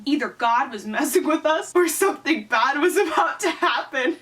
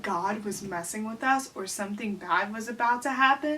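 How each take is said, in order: First: Higher, building melodrama; melodramatic story reading. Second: Mock incredulous repeat. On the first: Acted. Reading her childhood cliffhanger aloud, mounting melodrama. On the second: Repeats story line in disbelief.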